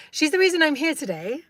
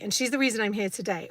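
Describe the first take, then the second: First: "reason" lifted higher and louder, laughing through the phrase; playful double meaning. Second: Said in the usual way. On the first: Shown as a demonstration. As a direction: land "She's the reason I'm here today" as a cheeky double entendre, raising "reason". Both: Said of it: "there's double entendre there".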